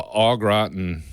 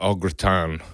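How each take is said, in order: First: Said in the usual way. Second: Au gratin slowed, with a half-hearted French accent; attempted French accent. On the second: Shown as a demonstration. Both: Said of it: "I can't do accents like au gratin".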